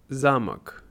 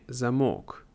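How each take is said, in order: First: The stress is on the first syllable. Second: The stress is on the second syllable. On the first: It means a big building where kings lived. The speaker calls it right. "Важно заметить ударение «замок»" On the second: It has a different meaning. The speaker calls it wrong. "не «замок», потому что это другое значение"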